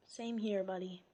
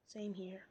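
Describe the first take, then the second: First: Said in the usual way. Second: Whispered Same here. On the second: Real, not acted. Reader agreeing with the Poochyena, whispered.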